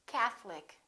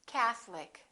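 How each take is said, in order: Both takes have the same delivery.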